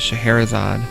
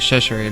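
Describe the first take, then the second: First: The name is said in its full form. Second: The name is said in a shortened, garbled form. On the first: This is the name as it should be said. The speaker calls it right. "instead of Scheherazade" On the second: This is how a childhood friend misread the name. The speaker calls it wrong. "he'd call it, uh, Cheshirade"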